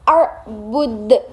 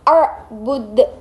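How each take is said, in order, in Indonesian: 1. Huruf d di akhir dilepas dengan pantulan gema. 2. Huruf d di akhir dilepas dengan pantulan gema.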